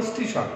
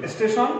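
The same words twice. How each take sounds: First: স্টেশন said as "istishon", i before the s; colloquial added vowel. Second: Said in the usual way. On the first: Shown as a demonstration. Teacher showing students how people say it, স্টেশন as istishon. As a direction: put an i in front and say স্টেশন as istishon. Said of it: "আমরা বলি". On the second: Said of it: "আমরা বলি স্টেশন".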